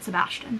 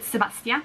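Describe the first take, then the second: First: The name is said with an English pronunciation. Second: The name is said with a French pronunciation. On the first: "we'll go with Sebastian" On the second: "they would actually pronounce it Sebastien"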